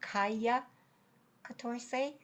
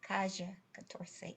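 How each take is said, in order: First: It is said in a Mexican Spanish accent. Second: It is said in a Buenos Aires Spanish accent. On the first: "as you would in, in Mexico" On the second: "I'm reading this with a, a Buenos Aires accent"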